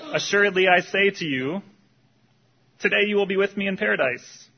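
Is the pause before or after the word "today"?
before. The pause comes before the word today.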